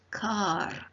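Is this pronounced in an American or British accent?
American. The final r sound is pronounced. "In American English, it is pronounced"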